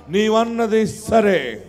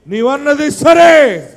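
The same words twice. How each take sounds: First: నీవన్నది సరే drawn out slowly and evenly; unhurried నీవన్నది సరే; slow concession. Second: నీవన్నది సరే slow, higher and louder, సరే falling hard; rising loud repeat of నీవన్నది సరే; loud retort. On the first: Repeated phrase, first take. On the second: Repeated phrase, second take. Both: Acted.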